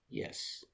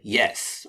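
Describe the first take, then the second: First: It is said in a flat, depressed way. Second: It is said in a firm, forthright way.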